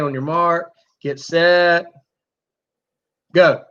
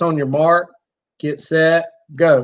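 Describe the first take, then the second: First: The words have long gaps between them. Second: The words are spaced at an even, steady pace. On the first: "allowing that time frame to get longer and longer" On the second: "remember it's on your mark, get set, go"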